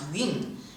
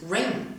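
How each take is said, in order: First: The word begins with a y sound. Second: The word begins with an r sound. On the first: The speaker calls it wrong. "not yun" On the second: The speaker calls it right. "it is rain"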